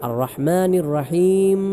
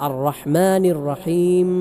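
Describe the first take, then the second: The two takes are said the same way.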